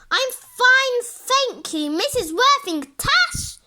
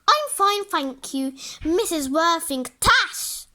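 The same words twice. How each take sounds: First: It is said more loudly. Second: It is said quietly and politely.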